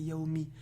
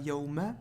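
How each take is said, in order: First: The word ends in an i vowel. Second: The word ends in an a vowel. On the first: The speaker calls it right. "la kasra" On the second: The speaker calls it wrong. "C'est pas Yawma"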